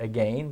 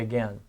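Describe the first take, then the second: First: It is said the way British speakers say it. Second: It is said the way American speakers say it. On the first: "In Britain they say it" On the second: "here we just say"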